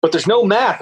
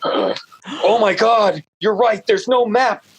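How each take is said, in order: First: Said in the usual way. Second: Higher, drawn-out gasping discovery; the author retells his horror at having no map; mock shocked realization. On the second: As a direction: act out suddenly realizing the mistake.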